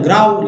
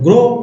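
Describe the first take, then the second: First: The vowel is said as an 'ow' glide. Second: The vowel is said as a plain 'oh'. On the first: The speaker calls it wrong. "आओ लगे ग्राउ" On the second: The speaker calls it right. "ओ लगाएंगे तो ग्रो"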